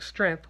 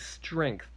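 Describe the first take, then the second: First: It is said without a G sound. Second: It is said with a G sound. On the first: The speaker calls it wrong. "I say it like there's no G" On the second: The speaker calls it right. "when I need to say strength"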